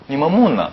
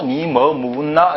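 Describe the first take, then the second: First: Gyeongsang "니 뭐 묻나", pitch rising to a peak then dropping; brisk Gyeongsang dialect question; Gyeongsang accent. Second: Drawn-out, even-toned Seoul reading of "니 뭐 묻나"; exaggerated slow Seoul intonation; Seoul accent. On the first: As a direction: ask it as a Gyeongsang local would. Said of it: "다르죠?". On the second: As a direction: read it very slowly as a Seoul speaker would. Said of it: "서울 사람 이건 모르면". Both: Shown as a demonstration.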